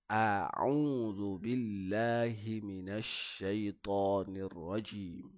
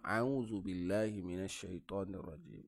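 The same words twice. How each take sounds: First: The opening 'a' sound is articulated clearly. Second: The opening 'a' sound is weak and unclear. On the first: The speaker calls it right. "A-nya dijelaskan" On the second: The speaker calls it wrong. "jangan ... Itu salah"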